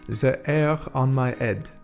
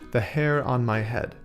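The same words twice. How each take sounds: First: It is said in a French accent. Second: It is said in a plain English accent.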